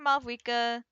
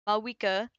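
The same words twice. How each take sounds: First: The name is said with a V sound. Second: The name is said without a V sound. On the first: The speaker calls it wrong. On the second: The speaker calls it right.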